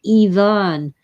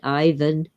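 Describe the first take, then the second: First: It is said with a Russian pronunciation. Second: It is said with an American pronunciation.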